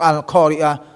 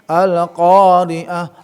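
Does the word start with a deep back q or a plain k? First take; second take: plain k; deep q. First: The q is a plain k sound. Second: The q is a deep sound from the back. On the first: The speaker calls it wrong. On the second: The speaker calls it right.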